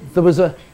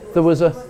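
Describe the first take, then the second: The two takes are said the same way.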